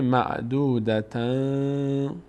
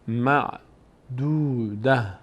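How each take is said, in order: First: The word ends in 'tan', running into the next. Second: The word ends with a soft 'h' sound. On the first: The reader continues into the next word. "اگر وقف نکردیم و ادامه دادیم، اون موقع همین ت خونده میشه" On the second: The reader stops after this word. "معدوده اگر وقف کنیم"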